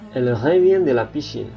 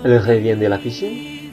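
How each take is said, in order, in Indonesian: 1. Ini diucapkan sebagai pernyataan biasa. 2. Ini diucapkan dengan intonasi bertanya.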